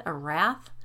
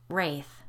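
First: "wrath" said like rath, short a, as a question; mistaking the word as "wrath"; mispronounced wraith. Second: "Wraith" said with a long ay, rayth, falling; correct pronunciation. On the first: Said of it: "Wraith, I corrected". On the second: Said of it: "I corrected". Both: Retold or imitated.

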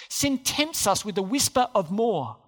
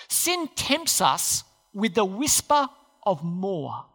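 First: Said in the usual way. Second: Slow, phrase by phrase, with pauses; slow emphatic statement. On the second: Shown as a demonstration. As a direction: spell out the key point slowly. Key point stated slowly, then repeated.

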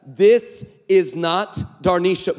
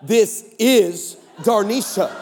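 First: "not" set apart in slow, separated words; slow down and land firmly on "not"; stress on NOT. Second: "is" drawn out in slow, separated words; slow down and lean on "is"; stress on IS. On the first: Man correcting a wrong-number texter, slowly stressing "not". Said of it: "I meant to text back". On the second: Man confessing what autocorrect sent, slowly stressing "is". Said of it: "autocorrect on my phone sent back". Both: Retold or imitated.

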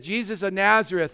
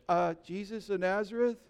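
First: Said in the usual way. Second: Hesitant, softer, with a questioning rise; sheepish. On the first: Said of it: "And they said". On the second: Acted. Fallen soldiers answer Jesus a second time, sheepish. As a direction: answer meekly, voice lifting into a question. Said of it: "they were a little sheepish".

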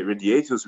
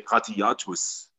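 First: Radiatus said the English way, "ray-dee-AY-tus"; anglicised radiatus, RAY vowel up front; English-style pronunciation. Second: Radiatus said the German-Latin way, "rah-tee-AH-tus"; hard Germanic radiatus, "ha-ti-AH-tus"; harder Latin pronunciation. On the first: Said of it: "we don't say radiatus". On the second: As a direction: say radiatus with throaty R and open AH vowels. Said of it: "we say radiatus". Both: Shown as a demonstration.

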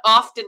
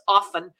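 First: "often" with the t sounded, "OFF-ten". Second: "often" with a silent t, "OFF-en"; "often" as "offen"; "often" without T. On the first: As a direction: say "often" pronouncing its t. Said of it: "it's not often". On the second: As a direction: say "often" dropping the t. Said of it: "it's often". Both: Shown as a demonstration.

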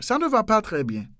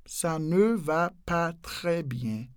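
First: Said in the usual way. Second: "Ça ne va pas très bien" very slowly, each word apart. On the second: Shown as a demonstration. Teacher breaking the sentence down slowly for learners.

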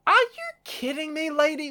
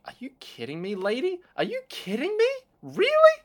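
First: Much higher from the start, held up in disbelief; mock outraged high voice. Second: Mock indignation building into a near squeal; mock outraged rant. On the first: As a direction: play the indignant musician, pitched way up. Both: Metal singer yelling at neighbor.

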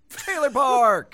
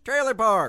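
First: High, loud, slow title call; announcer shout. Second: High, loud title call; announcer shout. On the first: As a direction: boom out the segment name. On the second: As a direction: announce the segment name. Announcing segment title again. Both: Acted.

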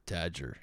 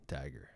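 First: Tagger as "TADJ-er"; trying a pronunciation. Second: Tagger as "TAG-er", hard g; trying a pronunciation. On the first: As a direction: soften the g in Tagger to a j sound. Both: Shown as a demonstration. Host introducing the new model, trying a pronunciation. Alternating versions of the surname.

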